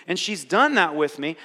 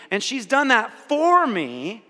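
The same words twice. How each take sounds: First: Said in the usual way. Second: For slow and louder, pitch raised; for drawn out and pushed up; stress on for. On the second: Shown as a demonstration. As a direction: lean on the word for, slowly. With me versus for me.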